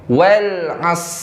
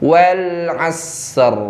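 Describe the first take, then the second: First: The final r sound is left out. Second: The final r sound is clearly heard. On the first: The speaker calls it wrong. "orang baca shadnya tapi ro-nya hilang" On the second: The speaker calls it right. "jadi ro-nya tebal nih"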